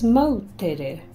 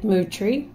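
First: The name is said in three syllables, like 'mow-teh-reh'. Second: The name is said in two syllables, like 'moo-tree'. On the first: The speaker calls it right. "The correct pronunciation is Moutere" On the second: The speaker calls it wrong. "Forget Mootree"

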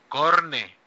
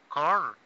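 First: The name ends with an added final e vowel. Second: The name ends on a consonant, no added vowel. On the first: The speaker calls it right. "por favor, [name]" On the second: The speaker calls it wrong. "Korn me suena tan horrible"

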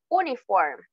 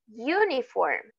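First: The word begins with a plain oo vowel sound. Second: The word begins with a y sound before oo. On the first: The speaker calls it wrong. "No decimos uniform" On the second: The speaker calls it right. "Uniform es igual a university. Comienza con una U, con sonido de consonante"

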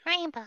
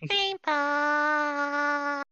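First: The word is said briefly. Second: The word is held and drawn out.

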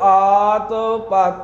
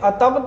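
First: The two words are said separately. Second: The two words are run together as one. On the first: The speaker calls it right. "ਆਤ ਤੇ ਪਤ ਇਹ ਵੱਖੋ ਵੱਖ ਪਾਠ ਏਦਾਂ ਕਰਨੇ ਨੇ" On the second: The speaker calls it wrong. "ਅਤਪਤ ਨਹੀਂ ਕਰਨਾ"

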